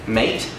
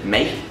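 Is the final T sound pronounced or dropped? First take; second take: pronounced; dropped. First: The final T sound is pronounced. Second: The final T sound is dropped.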